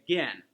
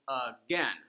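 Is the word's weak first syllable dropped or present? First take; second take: dropped; present. First: The weak first syllable is left out. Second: A brief weak first syllable is said. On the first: "Sometimes people might just quickly say "gin,"" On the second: "Notice how the stress goes again. I don't stay on the uh very much"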